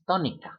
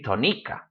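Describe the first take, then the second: First: The stress is on the first syllable. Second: The stress is on the second syllable. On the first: The speaker calls it right. "it's tónica" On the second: The speaker calls it wrong. "It should be tónica, but it's not"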